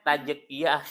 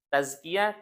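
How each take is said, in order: First: The middle consonant is a j sound. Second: The middle consonant is a z sound. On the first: The speaker calls it wrong. "dipanggil pakai J" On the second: The speaker calls it right. "Semua anak saya dipanggil pakai J"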